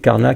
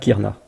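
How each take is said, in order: First: The first vowel is an open 'a' sound. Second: The first vowel is a close 'i' sound. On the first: This is one recognized recitation of the verse. "Il y a une récitation avec Karna" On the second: This is another recognized recitation of the verse. "une autre avec Kirna"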